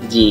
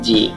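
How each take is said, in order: First: The letter name ends with an ee vowel. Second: The letter name ends without an ee vowel. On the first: The speaker calls it right. "একটা ই sound আসবে" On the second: The speaker calls it wrong. "আমরা normally বলে দিই হচ্ছে যে জি"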